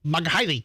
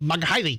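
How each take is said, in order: First: The name is said with an anglicized American accent. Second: The name is said with an anglicized American accent.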